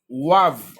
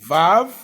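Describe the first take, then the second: First: It begins with a W sound. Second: It begins with a V sound. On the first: "ou bien Wav" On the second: "tu peux dire Vav"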